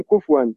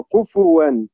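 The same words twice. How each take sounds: First: كفوا said kufwan, the fa silent with no vowel; كفوا said with sukun on the fa. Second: كفوا said kufuwan, with a clear u vowel on the fa; كفوا carefully said with damma on the fa. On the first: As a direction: run the fa of كفوا straight into the w, kufwan. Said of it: "ينطقها بالتسكين". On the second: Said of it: "عليها ضمة". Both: Shown as a demonstration.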